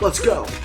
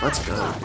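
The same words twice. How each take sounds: First: It is shouted loudly with energy. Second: It is said flatly, in a monotone. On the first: The speaker calls it right. "supposed to be shouting" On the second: The speaker calls it wrong. "that monotone voice"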